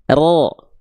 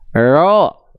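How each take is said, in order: First: The r has a short, firm trill. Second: The r has no trill at all. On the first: The speaker calls it right. "getarannya tetap ada" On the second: The speaker calls it wrong. "Justru hilang getarannya, jadi jadi kayak orang bule"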